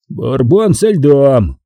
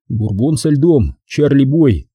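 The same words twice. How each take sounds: First: Slow, raised, furious echo of an order; indignant, stretched-out words; seething repetition. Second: Cheerfully needling drink order; jaunty, slow reply. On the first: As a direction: repeat the order through rising rage, drawn out. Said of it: "повторил он". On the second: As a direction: toss the order out merrily, drawing it out. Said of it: "весело ответил я". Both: A narrator's reading.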